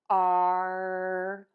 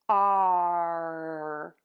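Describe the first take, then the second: The two takes are said the same way.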